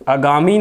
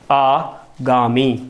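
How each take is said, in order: First: The first vowel is short. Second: The first vowel is long. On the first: The speaker calls it wrong. "आगामी नहीं होता शब्द" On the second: The speaker calls it right. "शब्द क्या होता है हमारा"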